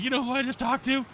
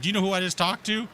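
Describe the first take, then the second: First: Very high-pitched incredulous mimicry; incredulous supervisor. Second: Raised-pitch mimicry of an indignant official; indignant officer. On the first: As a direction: throw the question back in a high mock voice. Supervisor acted throwing it back. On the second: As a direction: play her pulling rank, voice lifted. Acted boast by the border officer.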